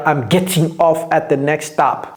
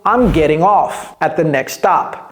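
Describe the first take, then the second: First: The t in 'getting' is a clear t. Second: The t in 'getting' is a d-like flap. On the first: The speaker calls it wrong. "Vous n'allez jamais entendre un Américain dire" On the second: The speaker calls it right. "Il va dire quoi plutôt? ... C'est un T un D soudé"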